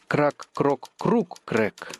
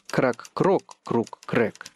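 First: The stress falls on the third syllable, круг. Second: The stress falls on the second syllable, крок.

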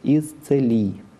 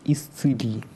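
First: The vowel after the 'ts' sounds like 'e'. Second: The vowel after the 'ts' sounds like 'i'. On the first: This is the church reading style. "«иконья» нет в церковном произношении, поэтому как в слове «целый»" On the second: This is the standard literary style. "в литературном произношении «иконья» есть"

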